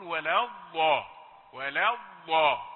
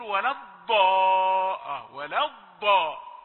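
First: Slow ولا الضا with the ضاد released soft, not stopped; soft ḍād demo. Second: Slow, louder ولا الضاء with a stopped, d-like ضاد; imitating hard ḍād. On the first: Shown as a demonstration. Teacher showing students the correct soft ḍād. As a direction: let the ضاد in ولا الضا flow without a stop. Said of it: "ما فيهاش صفة الشدة". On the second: Teacher mocking Egyptian readers' hard ḍād. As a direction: hit the ضاد like an emphatic dāl. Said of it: "ينطقون الضاد شديدة".

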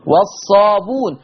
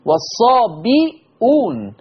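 First: والصابون with no hamza; Warsh reading. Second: Slow والصابئون with bi, then hamza-u; Hafs reading. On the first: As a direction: say والصابون as "was-saabuun". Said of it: "قرأ بضم الباء وحذف الهمزة". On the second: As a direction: say والصابئون as "was-saabi'uun". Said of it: "حفص قرأ بكسر الباء". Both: Shown as a demonstration.

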